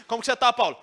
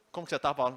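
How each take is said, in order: First: "Como que você tá, Paulo?" called out higher and louder; a friend calling out a question loudly; loud, showy greeting. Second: Said in the usual way. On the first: Shown as a demonstration. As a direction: hail Paulo loudly, the wrong way. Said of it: "ele não ficou assim". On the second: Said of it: "Não foi assim, não".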